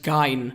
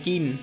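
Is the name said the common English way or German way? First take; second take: German; common English. First: The name is said the German way. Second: The name is said the common English way. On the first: "when the E comes before the I, it should be pronounced Gein" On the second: "I'm pronouncing his name the way I've heard other people pronounce it"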